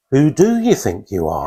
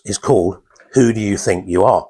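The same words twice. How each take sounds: First: "you" pushed forward as the key word; stress on you. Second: Said in the usual way. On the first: Shown as a demonstration. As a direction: lean on "you" and let the line fall. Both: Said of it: "put the emphasis on different words".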